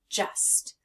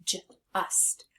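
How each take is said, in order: First: Said in the usual way. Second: Just split into a j sound, then ust. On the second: Shown as a demonstration. Teacher changing the vowel, Just sounded out as j, ust. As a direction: break Just after the first sound, softly. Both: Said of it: "take off that vowel sound and put a U".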